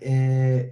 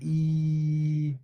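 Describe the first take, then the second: First: The vowel is open, with the tongue lower. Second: The vowel is close, with the tongue raised. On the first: The speaker calls it wrong. "Don't say eh" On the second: The speaker calls it right. "raise the tongue when you're pronouncing the ya"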